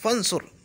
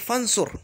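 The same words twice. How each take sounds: First: Fa links straight to nsur, dropping the u. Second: The same.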